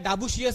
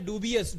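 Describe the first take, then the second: First: It is said like 'dabushius', with a 'sh' sound. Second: It is said like 'dubious', without a 'sh' sound. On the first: The speaker calls it wrong. "डाबुशियस नाही" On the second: The speaker calls it right. "डुबियस उच्चार आहे"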